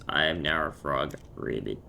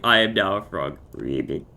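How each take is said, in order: First: Low croaky frog voice, dropping deep on Ribbit. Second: Louder mock frog croak, sinking low on Ribbit; croaky frog. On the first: Pretend. Player announcing they are now a frog, low croak. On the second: Player repeating the frog joke to friends, loud croaky frog. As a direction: belt out the frog line, then croak deep. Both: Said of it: "croaky voice".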